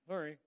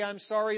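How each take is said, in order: First: It sounds like a mumbling thirteen-year-old. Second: It sounds like a sulky four-year-old.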